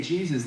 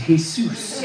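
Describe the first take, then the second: First: Said in the usual way. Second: "Jesus" said as hay-SOOS; Spanish pronunciation. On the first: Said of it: "It's pronounced Jesus". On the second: Acted. Jesus correcting a newcomer, "Jesus" in Spanish as hay-SOOS. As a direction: say "Jesus" with the J as an H, stress on the end. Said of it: "the J is soft".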